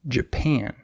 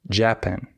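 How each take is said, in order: First: The stress is on the second syllable. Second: The stress is on the first syllable. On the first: The speaker calls it right. "the second syllable is stressed" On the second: The speaker calls it wrong. "They say Japan, and that's wrong"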